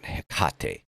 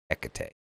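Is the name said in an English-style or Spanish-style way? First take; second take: Spanish; English. First: It is said Spanish-style, rhyming with Tecate. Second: It is said English-style, not rhyming with Tecate. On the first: The speaker calls it wrong. "not Hecate" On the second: The speaker calls it right. "It's Hecate"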